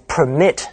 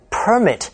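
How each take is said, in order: First: "permit" stressed on the second syllable, per-MIT; verb stress. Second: "permit" stressed on the first syllable, PER-mit; noun stress. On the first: Teacher gives learners the verb, "permit" with second-syllable stress. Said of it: "发音也不一样". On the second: Teacher gives learners the noun, "permit" with first-syllable stress. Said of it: "但是当名词用". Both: Shown as a demonstration.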